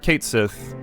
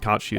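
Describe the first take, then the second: First: The name ends with a 'th' sound. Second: The name ends with an 'ee' sound. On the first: This is the form most people know. The speaker calls it wrong. "the pronunciation that people generally know more" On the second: This is the actual pronunciation. The speaker calls it right. "it's actually pronounced Kachi"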